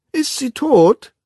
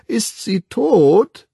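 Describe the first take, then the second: First: Put-on very high, slow nagging child voice; curious child. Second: Put-on very high, slow, childish question; child's voice. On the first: The curious twin trots beside the Savage, in a nagging child's voice. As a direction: repeat it like a pestering little kid. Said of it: "wiederholte der neugierige Zwilling". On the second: A twin asks the Savage about the dead woman, in a child's voice. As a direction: ask with blank curiosity like a small child. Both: A narrator's reading.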